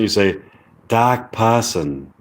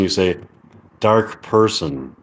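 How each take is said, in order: First: It is said in a British accent. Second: It is said in an American accent. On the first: "But with the British say British accent" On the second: "if you look at the American accent"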